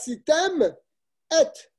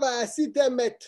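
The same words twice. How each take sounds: First: A tiny pause separates the final m and et. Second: The final m runs straight into et. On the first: The speaker calls it right. "il faut donc faire une toute petite pause" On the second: The speaker calls it wrong. "Et pas vaasitem et. C'est pas met, c'est et"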